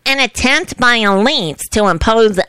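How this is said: It is spoken in a put-on impersonating voice.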